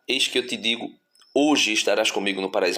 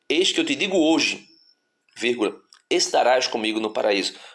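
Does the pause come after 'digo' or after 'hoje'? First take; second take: after digo; after hoje. First: The pause falls before the word 'hoje'. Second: The pause falls after the word 'hoje'. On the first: Being in paradise happens today. The speaker calls it right. "a vírgula não está, eis que eu te digo, hoje estarás comigo no paraíso" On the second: The promise is made today, paradise comes later. The speaker calls it wrong. "mas assim, eis que eu te digo hoje, vírgula"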